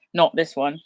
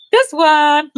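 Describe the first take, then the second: First: Said in the usual way. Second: High squeaky cartoon voice; squeaky toy voice. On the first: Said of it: "plays with soft toy". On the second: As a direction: pipe it up like a toy.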